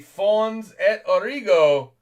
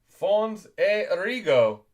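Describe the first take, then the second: First: The T in 'et' is pronounced. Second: The T in 'et' is silent. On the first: The speaker calls it wrong. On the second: The speaker calls it right.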